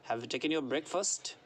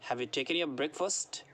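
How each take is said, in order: Both takes have the same delivery.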